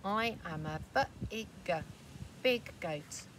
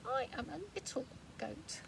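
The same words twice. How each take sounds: First: Lightly voiced big goat; proud and sure, hinting at size. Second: Higher, soft little goat; small and timid, much softer; tiny goat voice. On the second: Acted. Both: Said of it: "says the wee tiny one here".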